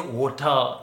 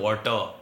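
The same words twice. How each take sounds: First: Water is said in a British accent. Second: Water is said in an Indian accent.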